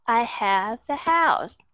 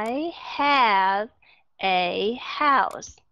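First: The sentence is spoken faster, words linked together. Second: The sentence is spoken slowly, word by word. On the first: "Rồi từ từ các bạn sẽ đọc lẹ hơn một chút" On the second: "Từ từ đọc"

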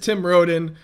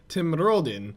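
First: The name is said in a normal voice. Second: The name is said with a put-on accent.

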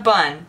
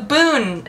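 First: The vowel is a short uh sound. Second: The vowel is a long oo sound. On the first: The speaker calls it wrong. "not a bun" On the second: The speaker calls it right. "It's a boon"

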